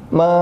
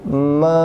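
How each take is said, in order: First: It starts directly with the mouth opening. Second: It starts with a nasal hum before opening. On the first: The speaker calls it wrong. "jangan ma, nggak boleh mulai ma dari buka mulut" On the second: The speaker calls it right. "tapi ma, awalnya usahakan ada dengung dulu"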